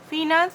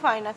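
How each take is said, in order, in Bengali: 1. প্রথম সিলেবলে একটা ছোট 'fi' স্বর আছে। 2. প্রথম সিলেবলে একটা 'fye' ডিফথং আছে। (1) "আমি ফিনান্স বলি না" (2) "আমি তো ফাইন্যান্স বলি, আমার উচ্চারণটা এটাই হয়"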